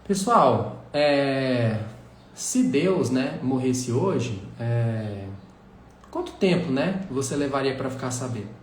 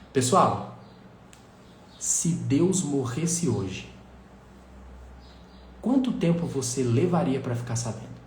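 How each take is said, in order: First: The pauses are filled with hesitation sounds. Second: The pauses are silent and dramatic. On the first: The question has no impact. The speaker calls it wrong. "com vícios" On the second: The question creates drama. The speaker calls it right. "com pausas dramáticas"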